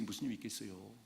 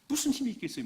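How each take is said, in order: First: 무슨 힘이 있겠어요 repeated low and much softer, leaning on 힘이; low quiet echo. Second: 무슨 lifted high and pushed hard, falling at the end; raised rhetorical question. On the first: Preacher repeating the question to himself, quietly. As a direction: drop the voice and murmur it back. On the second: Preacher asking the congregation, high and forceful. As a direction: throw 무슨 힘이 있겠어요 up high with force. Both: Shown as a demonstration.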